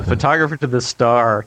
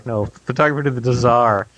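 First: "star" said with a plain st sound, the slip before the correction; "star" with plain st, as the mistaken first take; misspoken word. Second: "Tsar" said as zar with a ts start, fixing the slip; "Tsar" corrected from star, clearly said tsar; corrected word. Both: Real, not acted.

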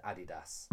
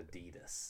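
First: "Adidas" said AD-ee-dass; British pronunciation. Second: "Adidas" said uh-DEE-dus; American pronunciation. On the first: Brit argues for his version, AD-ee-dass "Adidas". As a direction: stress the first syllable of "Adidas". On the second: Brit cites the rival version, uh-DEE-dus "Adidas". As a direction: put the stress on DEE in "Adidas". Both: Shown as a demonstration. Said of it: "rather than Adidas".

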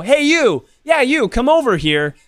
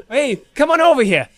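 First: Said in the usual way. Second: High, hailing Brooklyn-Jersey call; Jersey accent. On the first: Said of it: "Whereas if I go". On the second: Shown as a demonstration. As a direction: wave them over in broad Jersey. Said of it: "Brooklyn, New Jersey accent".

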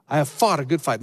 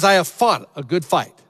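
First: Said in the usual way. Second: Loud triumphant proclamation; proclaiming. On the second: Acted. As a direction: declare it boldly to the crowd. Proclaiming Paul's triumphant words.

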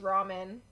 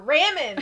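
First: Said in the usual way. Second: RAMEN with a short "a" as in ram; higher, louder "RAM-en", close to laughing; mispronounced ramen. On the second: Retold or imitated. Asking Logan out for food, ramen botched as "RAM-en". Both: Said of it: "the way that I did".

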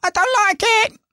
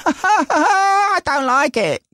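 First: Very high, sulky "I don't like it" with a rising end; mock whiny kid. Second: Much higher, slow, laughing whine of "I don't like it"; mock whiny kid. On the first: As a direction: squeak "I don't like it" like a pouting child. Mocking whiny voice again. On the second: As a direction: drag out "I don't like it" like a sulky kid, chuckling. Mocking whiny voice of the son.

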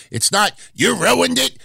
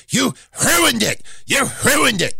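First: Said in the usual way. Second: High, breathy H in ruined, hruined; Vince McMahon voice. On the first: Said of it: "when you say ruined in Vince McMahon's voice". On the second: Retold or imitated. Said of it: "ruined in Vince McMahon's voice".

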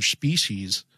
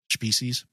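First: Species slurred as shpishiz. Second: Said in the usual way. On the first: Real, not acted. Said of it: "Are you drunk, [name]?". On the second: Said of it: "I kinda slurred my words there".

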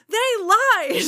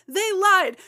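First: Higher and louder still, lied drawn out; bigger hammed-up lament. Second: High and loud, falling on lied; hammed-up lament. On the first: Kitty's second cry of betrayal, higher louder wail. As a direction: top the first one, wail it. Repeated line, even higher. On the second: Kitty's first cry of betrayal, high loud falling lament. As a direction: mourn it grandly. Repeated line, building.

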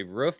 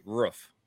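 First: "roof" with a long oo; "roof" rhyming with proof. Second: "roof" with a short vowel, near "ruff"; almost like rough. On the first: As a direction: say "roof" with the vowel of food. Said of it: "when I moved to the Midwest". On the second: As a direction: say "roof" so it nearly rhymes with rough. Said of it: "almost like a rough". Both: Shown as a demonstration.

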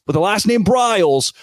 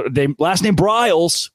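First: Briles said higher and hit hard; stress on Briles. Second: Said in the usual way. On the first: Shown as a demonstration. Host repeats coach's name to mock it, stress on Briles.

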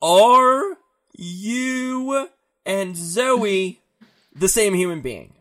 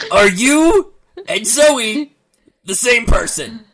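First: Very slow, stress on "Are", falling end; even slower pointed question. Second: High, slow question with a rising end; slow pointed question. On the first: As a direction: stretch out "Are" and let the question fall. Counselor repeats the question slower. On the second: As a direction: draw each word out, rising at the end. Counselor questions camper pointedly. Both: Acted.

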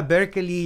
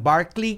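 First: "Berkeley" sounded as BER-klee, not BAR; pronunciation of Berkeley. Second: "Barkley" sounded as BARK-lee; variant pronunciation Barkley. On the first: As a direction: say "Berkeley" with an "er" first vowel. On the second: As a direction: say "Barkley" with an open "ar". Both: Shown as a demonstration. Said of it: "hay unos que los pronuncian Barkley".

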